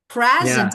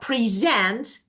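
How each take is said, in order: First: The stress is on the first syllable. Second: The stress is on the second syllable.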